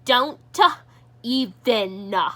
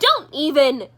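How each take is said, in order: First: The consonants are drawn out and lengthened. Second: The consonants are said short and quick. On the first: The speaker calls it right. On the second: The speaker calls it wrong.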